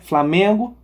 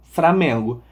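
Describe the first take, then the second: First: The word begins with the cluster 'fl'. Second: The word begins with the cluster 'fr'. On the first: "o encontro consonantal F L" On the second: "por F R"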